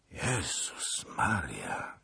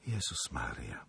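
First: Slow, softer groan; moaning. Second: Faint, voiceless whisper; shocked repetition. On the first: Zagloba hears of the disaster, dismayed moan. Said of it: "jęknął pan Zagloba". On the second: Helena echoes Zagloba before bursting into tears, stricken whisper. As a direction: breathe it out in a low whisper, near tears. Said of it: "powtórzyła Helena i wybuchnęła płaczem". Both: A narrator's reading.

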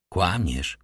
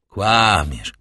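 First: Firm. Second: "Kłamiesz" pressed harder and louder, each syllable weighted; with even greater emphasis. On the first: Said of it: "powiedział ze stanowczością". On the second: Priest accusing Caderousse a third time, "Kłamiesz" stressed louder. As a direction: lean hard on "Kłamiesz", insisting for the third time. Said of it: "powtórzył ksiądz po raz trzeci i z jeszcze większym naciskiem". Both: A narrator's reading.

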